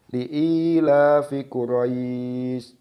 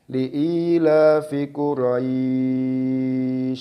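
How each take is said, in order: First: The long vowel is held for two beats. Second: The long vowel is held for six beats. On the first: "dengan dua harokat" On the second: "dengan enam harokat"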